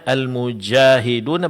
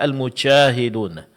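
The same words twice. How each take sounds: First: The j sound is fully voiced without escaping air. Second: The j sound is breathy, like ch, with air. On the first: The speaker calls it right. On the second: The speaker calls it wrong. "keluar angin, sehingga mirip dengan huruf shin atau mirip dengan huruf C"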